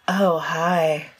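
It sounds sexy and throaty.

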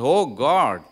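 It sounds relieved, as after being saved.

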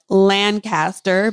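It is said with a Kansas pronunciation.

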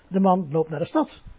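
The word 'stad' carries the main stress. He goes to the city, not the countryside. "Hij loopt niet naar het platteland, maar naar de stad"

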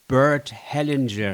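The name is said with English pronunciation.

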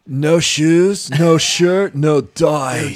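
It is said in a Spicoli impression.

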